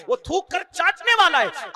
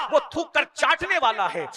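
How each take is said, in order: First: वो थूक कर चाटने वाला है said again, louder, with a hard fall on वाला; repeated with more force. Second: Said in the usual way. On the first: Shown as a demonstration. Preacher repeating the Prophet's saying to the men, louder emphatic repeat. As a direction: hammer the line home a second time, pressing वाला.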